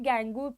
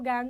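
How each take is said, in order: First: The word ends with an added 'oo' vowel. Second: The word ends on the consonant, no added vowel. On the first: The speaker calls it wrong. "इसको कई बच्चे गैंगू pronounce करते हैं, that is wrong" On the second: The speaker calls it right. "गैंग बोलो"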